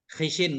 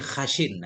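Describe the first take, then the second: First: The first vowel is an 'i' sound. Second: The first vowel is an 'a' sound. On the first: "kita baca dengan dua kasrah, kasrah shin dan kha" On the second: "fathah kha dan kasrah shin"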